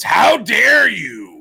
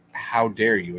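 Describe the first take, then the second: First: Loud, slow, high cartoon outrage; drawn out, scandalized how dare you; outraged shout. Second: Said in the usual way. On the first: Shown as a demonstration. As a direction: bellow it like an offended cartoon boss. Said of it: "You have to say it that way". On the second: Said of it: "is not said".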